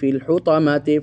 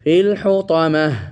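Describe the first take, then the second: First: The word ends with a 't' sound and vowel. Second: The word ends with a soft 'h' sound. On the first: The reading continues without stopping. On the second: The reader stops at this word.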